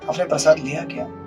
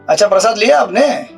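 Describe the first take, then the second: First: It is asked with caring concern. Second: It is asked in a taunting, sarcastic way.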